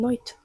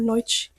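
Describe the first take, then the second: First: The word ends with a t sound. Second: The word ends with a ch sound. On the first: This is how people in Portugal say it. "They say" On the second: This is how it is said elsewhere. "they don't say"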